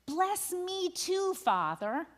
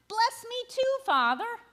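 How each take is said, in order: First: Slow, rising plea; anguished cry. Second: High, pleading cry of bless me too; desperate begging. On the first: Esau cries out to his father, slow anguished plea. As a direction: draw out the cry with a lift. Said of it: "he says in anguish, he cries out". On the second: Esau begs his father a second time, high pleading. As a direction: beg harder, voice climbing high. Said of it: "Esau begs". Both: A narrator's reading.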